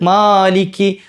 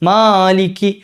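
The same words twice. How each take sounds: First: The first vowel is held for two counts. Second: The same.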